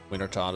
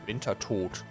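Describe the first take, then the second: First: The name is said with English pronunciation. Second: The name is said with German pronunciation.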